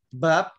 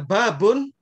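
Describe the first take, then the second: First: The word ends on a bare final consonant. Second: The word ends with an added 'un' sound. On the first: It is unclear whether the word carries nunation. "Misalnya kita baca bab aja" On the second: The word carries nunation. "kalau kita baca babun, berarti di situ ada tanwinnya"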